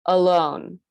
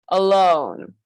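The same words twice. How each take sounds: First: Said in the usual way. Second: "alone" with tiny "a" and long, strong "lone"; exaggerated stress contrast. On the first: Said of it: "Everything that's underlined is pronounced with this uh sound". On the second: Shown as a demonstration. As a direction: punch and stretch the second syllable of "alone". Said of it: "sounds even more dramatic and even more important".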